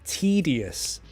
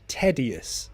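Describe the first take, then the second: First: The first syllable sounds like the letter T. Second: The first syllable does not sound like T. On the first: The speaker calls it right. "Pronunciation T" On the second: The speaker calls it wrong. "Not tedious"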